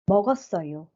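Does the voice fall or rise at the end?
fall. The voice falls at the end. It is a statement.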